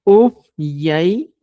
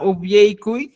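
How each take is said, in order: First: Upyaikunku said slowly and louder; slow, stressed Quechua word. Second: Upyaikuy said slowly, syllable by syllable; slow Quechua word. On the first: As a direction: stretch out upyaikunku clearly. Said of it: "puede ser". (upyaikunku lento y marcado) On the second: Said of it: "En vez de decir". (upyaikuy despacio, sílaba por sílaba) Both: Shown as a demonstration.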